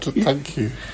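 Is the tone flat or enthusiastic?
enthusiastic. It is said warmly, with enthusiasm.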